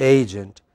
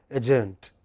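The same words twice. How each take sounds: First: "Agent" as AY-jent, long first vowel; correct pronunciation. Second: "agent" with a short first vowel and weight on the end; mistaken pronunciation. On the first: Teacher corrects the class's mistake, stressed on first syllable. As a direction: lean on the AY of "Agent", second syllable short. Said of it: "that's not correct. What is it?". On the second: Teacher shows students a common mistake, mispronounced. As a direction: say "agent" wrongly as uh-JENT. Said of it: "many of us by mistake pronounce". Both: Shown as a demonstration.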